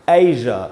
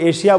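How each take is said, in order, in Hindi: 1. बीच का व्यंजन एक घोष 'zh' ध्वनि है। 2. बीच का व्यंजन एक अघोष 'sh' ध्वनि है। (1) "असल उच्चारण है एज, ए एंड ज, और वही ज वाला साउंड" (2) "अब इसको हम लोग एशिया बोलते हैं ना"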